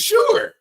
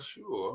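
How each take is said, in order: First: The word is said brightly and cheerfully. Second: The word is said quietly and subdued. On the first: The caller's request seemed routine. "the first one was sure" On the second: The caller's request made her uneasy. "Got very quiet"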